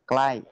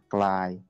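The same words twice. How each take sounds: First: The pitch falls across the word. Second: The pitch stays level across the word. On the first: "nada jatuh" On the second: "nada datar"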